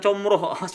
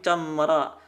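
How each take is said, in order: First: The vowels are said with rounded lips. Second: The vowels are open with unrounded lips. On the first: The speaker calls it wrong. "bukan comroh" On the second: The speaker calls it right. "tapi camra"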